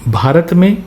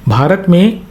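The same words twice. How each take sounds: The two takes are said the same way.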